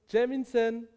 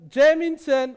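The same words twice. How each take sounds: First: The name is called louder and more insistently. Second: The name is called loudly with a raised voice. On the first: The caller is becoming impatient. "langsam wütend werdenden" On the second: The caller insists on being heard. "seine Stimme erhebt"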